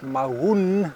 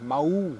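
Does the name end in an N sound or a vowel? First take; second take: N sound; vowel. First: The name ends with a clear N sound. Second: The name ends in a vowel, with no N. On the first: "with an N at the end is probably the most appropriate pronunciation" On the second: "without the N at the end"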